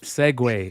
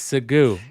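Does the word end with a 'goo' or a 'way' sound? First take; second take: way; goo. First: The word ends with a 'way' sound. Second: The word ends with a 'goo' sound. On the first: This is the usual name. "It's not Segway" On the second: This is an inside joke. "I say Segoo instead of Segway. It's an old uh, inside joke"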